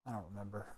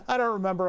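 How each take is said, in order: First: Barely audible, under the breath; muttered aside. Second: Said in the usual way. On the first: Real, not acted. Wiring a circuit, admitting he forgot, muttered under breath. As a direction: mumble it to yourself, almost swallowed.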